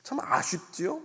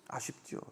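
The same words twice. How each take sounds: First: Said in the usual way. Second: Breathy whispered repeat; whispered echo. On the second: Shown as a demonstration.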